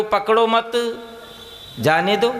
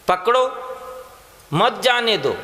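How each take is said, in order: First: पकड़ो मत run together, long pause, then जाने दो; pause after मत. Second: पकड़ो, clear pause, then मत जाने दो as one group; pause after पकड़ो. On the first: Preacher shows the misplaced pause reversing the meaning, pause after मत. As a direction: join मत to पकड़ो and break before जाने दो. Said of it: "विराम को यदि गलती से मत के बाद में लगा दो". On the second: Preacher shows how punctuation changes meaning, pause after पकड़ो. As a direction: break right after पकड़ो, keep मत with जाने दो. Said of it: "पकड़ो के बाद विराम लगा दो". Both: Shown as a demonstration.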